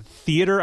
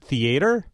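First: THEATER as "THEE-uh-ter", stress at the front; usual pronunciation. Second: THEATER as "thee-AY-ter"; friend's variant. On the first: Shown as a demonstration. Host offers a favorite example, THEATER stressed on the first syllable. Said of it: "One of my favorites". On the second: Retold or imitated. Host imitates a friend, THEATER as "thee-AY-ter". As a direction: stress a long AY in the middle of THEATER. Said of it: "a friend who said it".

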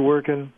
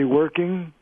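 First: "working" said casually as "workin'"; dropped G. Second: "working" with the full -ing ending; formal pronunciation. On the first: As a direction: drop the G in "working", ending on a plain N. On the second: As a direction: keep the G in "working", as in a public speech. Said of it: "to formally in a public speech". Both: Shown as a demonstration.

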